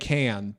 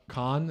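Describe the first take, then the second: First: The name sounds like the word 'can'. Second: The name does not sound like 'can'. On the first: It is a deliberate joke mispronunciation. The speaker calls it wrong. "I'm saying can, but I'm saying it ironically" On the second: It copies the other person's intended pronunciation. The speaker calls it right. "is that how you're saying it?"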